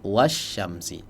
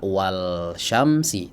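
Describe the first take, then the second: First: The L merges into a doubled sh sound. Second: The L sound is clearly pronounced. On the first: The speaker calls it right. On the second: The speaker calls it wrong. "tidak dibaca"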